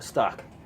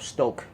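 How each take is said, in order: First: The vowel is a short 'o' sound. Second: The vowel is a long 'oh' sound. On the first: The speaker calls it wrong. "I kept on calling it Stock" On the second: The speaker calls it right. "the O is long"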